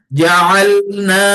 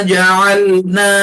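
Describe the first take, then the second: The two takes are said the same way.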